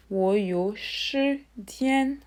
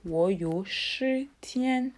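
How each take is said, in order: Both takes have the same delivery.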